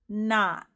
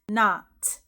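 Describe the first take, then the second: First: The final T is held without release. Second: The final T is clearly released. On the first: The speaker calls it right. "we don't say the T part" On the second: The speaker calls it wrong. "You're not going to hear"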